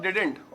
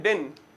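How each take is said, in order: First: Said in the usual way. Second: Didn't said as "didn" with the t dropped; casual didn't with no final t; silent t in didn't. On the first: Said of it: "did not को मिला के क्या बोलते हैं". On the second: Shown as a demonstration. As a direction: swallow the t at the end of didn't. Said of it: "didn't का भी टी silent कर देते हैं".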